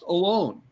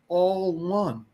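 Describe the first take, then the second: First: It is said as a single word. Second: It is split into two separate words. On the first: Someone is by themselves. The speaker calls it wrong. "They think A L O N E is pronounced alone" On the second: Everyone is part of one whole. The speaker calls it right. "it's pronounced like we're talking here, all one"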